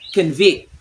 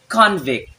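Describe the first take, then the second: First: The stress is on the second syllable. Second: The stress is on the first syllable. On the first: The word is used as a verb. "When it's verb" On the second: The word is used as a noun. "when it's noun"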